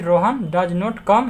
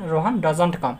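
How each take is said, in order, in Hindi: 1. 'Does not' दो पूरे शब्दों की तरह बोला जाता है। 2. 'Does not' एक छोटे शब्द में जुड़कर बोला जाता है।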